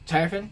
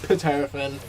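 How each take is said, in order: First: The name begins with no P sound. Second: The name begins with an audible P sound. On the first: "With a silent P" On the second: "with a P, it's no longer silent"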